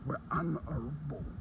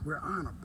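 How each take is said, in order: First: Every syllable of honorable is fully pronounced. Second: The word honorable is clipped in slang. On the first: "He's actually pronouncing the whole word" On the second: "listen to my slang. I say"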